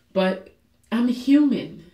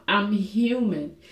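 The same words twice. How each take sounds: First: Said in the usual way. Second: I'm human said slowly and softer, sinking; slow, soft repeat. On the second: Real, not acted. Admitting her weakness to viewers, slow and soft.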